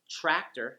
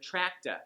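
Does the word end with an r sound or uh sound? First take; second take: r sound; uh sound. First: The word ends with an r sound. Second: The word ends with an uh sound. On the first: "or sounds like tractor" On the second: "you'll hear tracta"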